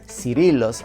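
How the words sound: The name is said with English pronunciation.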